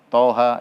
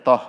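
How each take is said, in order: First: Two letter names are said one after another. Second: The letters are merged into one short syllable. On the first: The speaker calls it right. "dibaca per huruf" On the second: The speaker calls it wrong. "jangan dibaca toh"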